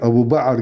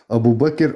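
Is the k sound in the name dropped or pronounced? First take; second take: dropped; pronounced. First: The k sound in the name is dropped. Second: The k sound in the name is clearly pronounced. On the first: The speaker calls it wrong. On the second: The speaker calls it right.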